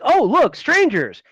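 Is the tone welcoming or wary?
welcoming. It sounds open and welcoming.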